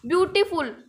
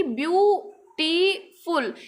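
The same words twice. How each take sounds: First: Said in the usual way. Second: ब्यूटीफुल slowly split into three parts, ब्यू-टी-फुल; syllable by syllable. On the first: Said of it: "इसको क्या हम एक आवाज़ में बोल देंगे". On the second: Shown as a demonstration. Teacher shows ब्यूटीफुल has three syllables, saying ब्यू-टी-फुल separately. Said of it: "हम कैसे बोलेंगे कि".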